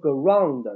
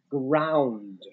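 First: The vowel sounds like a flat 'ang'. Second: The vowel sounds like a gliding 'ow'. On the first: The speaker calls it wrong. "那有同学会读成ground. No, it's not a ground" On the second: The speaker calls it right. "It's a ground"

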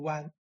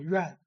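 First: The word is pronounced 'wan'. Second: The word is pronounced 'yuan'. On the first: This is the local reading. "我们这边读湾" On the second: This is the standard Mandarin reading. "普通话读院"

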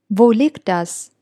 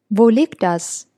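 No difference in how they are said.

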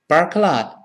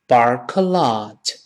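First: The phrase is said quickly. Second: The phrase is said slowly. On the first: "我们把这三个词读快点" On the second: "我们先慢慢读"

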